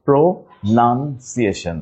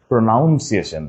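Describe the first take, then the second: First: Very slow "pronunciation" as pro, nun, ciation; syllable by syllable. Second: "pronunciation" run together as pro-NOUN-ciation; mispronounced with "noun". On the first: Teacher correcting class, "pronunciation" slowly split around nun. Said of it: "not noun". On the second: Teacher rejecting a mistake, "pronunciation" with noun inside. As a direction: show the wrong "ow" vowel in "pronunciation". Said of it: "it is not". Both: Shown as a demonstration.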